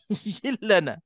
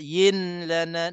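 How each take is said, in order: First: The n is gone, merged into a doubled l. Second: A nasal n is heard before the l. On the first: The speaker calls it right. "Yillana maknanya langsung tak ada nun" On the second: The speaker calls it wrong. "Itu nun tu masih tersekat dekat hidung"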